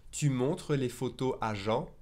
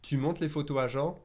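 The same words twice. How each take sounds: First: Said in the usual way. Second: "Tu montres les photos à Jean" with montres said as "mont"; dropped final R. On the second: Shown as a demonstration. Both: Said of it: "I kinda drop that final R".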